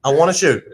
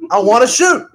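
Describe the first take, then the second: First: Said in the usual way. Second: High, loud whine; whiny shout. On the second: Acted. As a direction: whine it out like a bored kid. Sniper whining to partner Bill.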